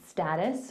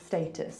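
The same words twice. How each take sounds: First: It is said with an American pronunciation. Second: It is said with a British pronunciation. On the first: "United States would say status" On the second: "we would say status"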